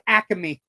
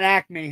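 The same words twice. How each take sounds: First: Acme is said with the local regional pronunciation. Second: Acme is said with a non-local pronunciation. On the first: The speaker calls it right. "the correct pronunciation in NEPA is" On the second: The speaker calls it wrong.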